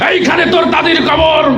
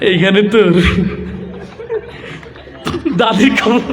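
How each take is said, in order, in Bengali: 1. এটা উঁচু গলায় রাজনৈতিক বক্তৃতার মতো করে বলা হচ্ছে। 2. এটা লাজুকভাবে, দ্বিধা নিয়ে আস্তে আস্তে বিড়বিড় করে বলা হচ্ছে। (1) "নেতা এসে কবিতা আবৃত্তি করছে এইভাবে" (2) "লাজুক একটা যুবক আসছে, তার আবৃত্তির ঢং ছিল এরকম"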